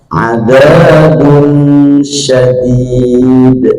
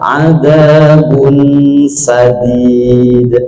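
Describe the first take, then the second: First: The second word begins with a sh sound. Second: The second word begins with an s sound. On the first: The punishment is severe. The speaker calls it right. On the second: The punishment is gentle. The speaker calls it wrong.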